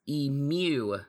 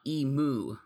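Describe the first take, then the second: First: The word does not rhyme with limu. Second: The word rhymes with limu. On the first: The speaker calls it right. "The bird's name is pronounced emu" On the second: The speaker calls it wrong. "not emu"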